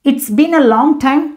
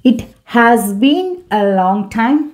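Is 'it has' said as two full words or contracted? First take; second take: contracted; full. First: It has is shortened to one syllable, it's. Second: It has is said as two full words. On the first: "it's அப்படி நம்ம பேசலாம்" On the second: "It has"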